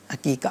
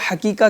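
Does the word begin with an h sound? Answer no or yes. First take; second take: no; yes. First: The word begins without an h sound. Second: The word begins with an h sound. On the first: The speaker calls it right. "ये आइन के साथ आता है" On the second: The speaker calls it wrong. "लोग इसको हकीका कह रहे होते हैं, हा के साथ"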